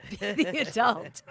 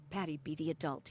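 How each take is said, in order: First: Slow, loud stage whisper. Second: Low, soft imitated coaching; steady her with a firm, soft word; quiet coaching. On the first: Retold or imitated. Husband whispering to his raging wife, slow stage whisper. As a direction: imitate an urgent coaching whisper. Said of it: "whispering to me". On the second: Husband coaching wife during a fight, low and quiet. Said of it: "he'd be just coaching me".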